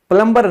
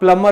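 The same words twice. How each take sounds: First: The b sound is pronounced. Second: The b sound is silent. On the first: The speaker calls it wrong. "नहीं होता" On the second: The speaker calls it right. "होता है"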